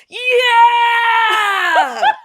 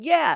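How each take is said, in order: First: It is said loudly, with high energy. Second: It is said flatly, with little energy. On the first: The speaker sounds ready and hyped up. The speaker calls it right. "it's gonna hype you up" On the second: The speaker does not sound ready. The speaker calls it wrong. "See how you just said, yeah. ... you don't sound like you're ready"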